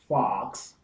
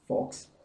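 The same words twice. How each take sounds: First: The vowel is an American long open ah. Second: The vowel is a short rounded British o. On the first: "So here we have O as in God" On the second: "You would have shop, fox"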